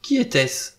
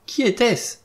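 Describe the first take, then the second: First: Higher, urgent question; crying out. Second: Much higher, alarmed cry; insistent cry. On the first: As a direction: cry it out, moderately raised. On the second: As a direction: repeat the question in a high, frantic pitch. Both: A narrator's reading. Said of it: "s'écria encore Vera".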